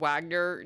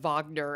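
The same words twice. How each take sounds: First: The name begins with a W sound. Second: The name begins with a V sound. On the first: This is how the game says it. "that's how uh, they're pronouncing it here" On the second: This is the German way of saying it. "I always thought that the W's in German were pronounced like V's"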